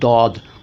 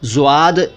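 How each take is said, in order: First: The name starts with a d sound. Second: The name starts with a z-like sound. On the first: This is how it is said in Arabic. "लेकिन वहाँ कहा जाता है दौद" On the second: This is how Urdu speakers say the letter name. "ज़्वाद या द्वाद कहते हैं हम लोग"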